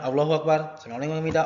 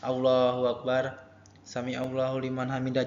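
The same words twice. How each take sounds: First: It is said quickly and hurriedly. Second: It is said slowly and calmly.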